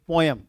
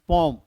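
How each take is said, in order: First: The word is said with two syllables, po-em. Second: The word is said as one syllable, pom. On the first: The speaker calls it wrong. "Not be पोयम" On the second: The speaker calls it right. "The right pronunciation of पोयम is पोम"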